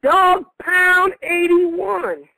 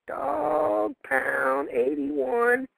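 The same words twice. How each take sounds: First: Slow, drawn-out pick reveal; draft announcer. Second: Said in the usual way. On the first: Acted. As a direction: announce the name big and slow.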